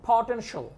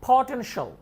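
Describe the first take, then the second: No difference in how they are said.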